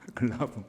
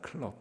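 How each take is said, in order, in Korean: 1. 세 음절이고 b 뒤의 모음으로 끝나요. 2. 두 음절이고 p 받침으로 끝나요. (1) "일본 말로는 이 클럽이 발음이 좀 달라요" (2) "일본은 술집을 클럽이라고 합니다"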